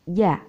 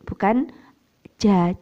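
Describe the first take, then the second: First: The j is said with no breath released. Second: The j is said with breath released. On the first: The speaker calls it right. "tidak ada nafas yang keluar" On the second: The speaker calls it wrong.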